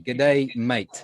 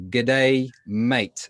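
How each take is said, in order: First: Broad Australian "G'day, mate" again, cueing the class. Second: Broad Australian "G'day, mate", the day squeezed into one quick "g'day". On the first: Teacher cueing the class to repeat an Australian "G'day, mate". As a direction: prompt them with an Australian greeting. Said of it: "So everybody repeat". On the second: Teacher modelling a broad Australian "G'day, mate" for the class. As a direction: model a friendly Australian greeting. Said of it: "we are all going to practice our Australian accents". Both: Shown as a demonstration.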